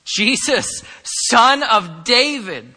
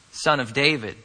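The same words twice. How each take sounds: First: Loud, high acted cry, drawn out; raised voice, imitating a desperate cry. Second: Said in the usual way. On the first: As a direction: call out to someone passing by. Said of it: "At the top of his lungs, cried out". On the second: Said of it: "look what this blind man calls him".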